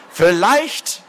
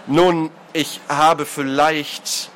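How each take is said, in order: First: High, rising incredulous echo; voice cracking outrage. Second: Very slow, faltering admission; stall, feeling for words; hesitant start. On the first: Lord mocking the culprit's hedge, voice overturning. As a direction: fling the word back, outraged. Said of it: "die Stimme des Adligen überschlug sich". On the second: Culprit beginning a confession, hesitantly. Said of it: "setzte der kräftige Mann an". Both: A narrator's reading.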